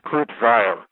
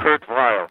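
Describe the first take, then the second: First: The name is said the non-American way. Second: The name is said the American way. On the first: This is the name as it was before. "I no longer want to be called Kurt Weill" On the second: This is the name as it was wanted. "I want to have my name pronounced the American way"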